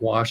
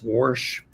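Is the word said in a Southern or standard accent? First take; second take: standard; Southern. First: It is said in a plain standard accent. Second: It is said in a Southern accent. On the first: "it's not wash" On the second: "my cousins have these wonderful Southern accents"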